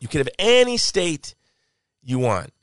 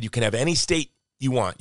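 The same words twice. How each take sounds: First: ANY stretched high, then a pause before "you want"; stress on ANY. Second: Said in the usual way. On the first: Retold or imitated. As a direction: hit the word ANY high and hard. Quoted offer repeated with emphasis.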